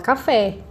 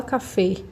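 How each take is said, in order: First: Café with a stressed open é; open final vowel. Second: Café said as cafê, closed E; wrong closed vowel. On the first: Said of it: "a gente fala café". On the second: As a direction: mispronounce café with a closed final ê. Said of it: "A gente não fala café". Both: Shown as a demonstration.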